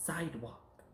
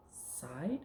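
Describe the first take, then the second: First: Said in the usual way. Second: "Sidewalk" split as rising "side", pause, soft "walk"; word chopped up. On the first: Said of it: "now we're gonna take words apart". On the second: Shown as a demonstration. Teacher taking words apart for pupil, "Sidewalk" in two pieces. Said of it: "We're gonna chop 'em up".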